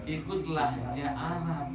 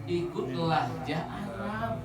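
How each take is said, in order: The two takes are said the same way.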